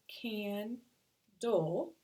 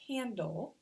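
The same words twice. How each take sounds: First: "candle" broken slowly into can and dle; teacher sounding out candle, can... dle; split into syllables. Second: Said in the usual way. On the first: Shown as a demonstration. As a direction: say candle in two separate beats. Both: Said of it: "when we do syllables".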